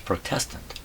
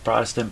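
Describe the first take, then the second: First: The stress is on the second syllable. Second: The stress is on the first syllable. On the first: Someone who is protesting. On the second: A member of a Protestant church.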